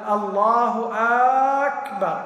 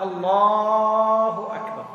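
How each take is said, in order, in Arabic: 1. يُمَدّ الفتحة الأولى في أكبر. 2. يُمَدّ صوت اللام في الله. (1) "أو همزة أكبر لو قال الله أكبر أيضا ما يصح" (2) "لو مد اللام تنعقد"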